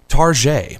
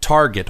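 First: The word is said in a fancy, refined way. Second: The word is said in a plain, ordinary way.

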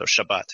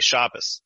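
First: It ends in T, stress on the last syllable. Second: It ends in S, stress on the first syllable. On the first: This is the Hebrew form. "So in Hebrew, the Sabbath is the Shabbat" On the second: This is the Yiddish form. "it shifts the T sound to an S, and it shifts the syllable emphasis to the first syllable"

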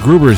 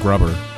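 First: The first vowel is long, like 'rube'. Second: The first vowel is short, like 'rub'. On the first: The speaker calls it right. "Mr. Gruber's here" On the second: The speaker calls it wrong. "not Mr. Grubber"

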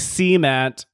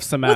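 First: It is said with a regional pronunciation. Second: It is said with the standard pronunciation. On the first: This is how the speaker personally says it. "I say cement" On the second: This is how others usually say it. "instead of cement"

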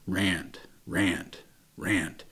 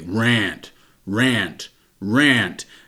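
First: It is said louder, at medium volume. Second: It is said very loudly and forcefully.

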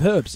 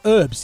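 First: The word starts with an h sound. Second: The word starts without an h sound. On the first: This is how the hosts themselves say it. The speaker calls it right. "Is an H" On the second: This is how Americans say it. The speaker calls it wrong. "herbs instead of herbs"

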